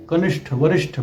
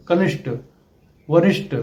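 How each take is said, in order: First: कनिष्ठ and वरिष्ठ ending in aspirated ठ with a puff; correct aspirated ending. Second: कनिष्ठ and वरिष्ठ ending in plain unaspirated ट; wrong unaspirated ending. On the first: Teacher modelling the correct aspirated ending. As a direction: finish कनिष्ठ with a breathy ṭh. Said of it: "सही शब्द है". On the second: Teacher showing the mistaken ending. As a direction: end कनिष्ठ with a hard plain ṭ, no breath. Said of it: "आदि शब्द गलत हैं". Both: Shown as a demonstration.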